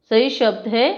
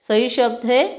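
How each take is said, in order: No difference in how they are said.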